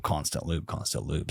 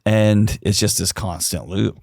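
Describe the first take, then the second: First: Each repeat softer, dying away; fading echo. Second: Said in the usual way. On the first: Shown as a demonstration. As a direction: let the words trail off into near silence. Echoing the phrase, fading out.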